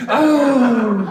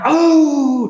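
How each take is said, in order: First: High, loud gasp for the audience to copy; loud startled oh with a laugh; shocked gasp. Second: High, loud startled oh; a crowd's loud shocked gasp. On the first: Shown as a demonstration. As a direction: model the crowd's gasp, laughing a little. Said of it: "Try that, ready?". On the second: Acted. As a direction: gasp as if seeing a monster. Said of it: "and they went".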